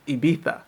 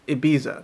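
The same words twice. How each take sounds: First: It is said with the local native pronunciation. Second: It is said with an English-style pronunciation. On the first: The speaker calls it right. "this should be" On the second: The speaker calls it wrong. "if I listen to other native English speakers, this is pronounced"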